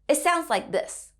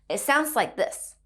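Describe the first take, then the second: Both takes have the same delivery.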